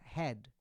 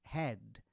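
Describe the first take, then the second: First: The word ends sharply on the final consonant. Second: The same.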